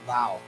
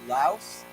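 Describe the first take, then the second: First: The name ends without an s sound. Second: The name ends with an s sound. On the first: This is how local people say it. The speaker calls it right. "the way to pronounce this is actually Lao" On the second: This is the common American way. The speaker calls it wrong. "most Americans, we say Laos"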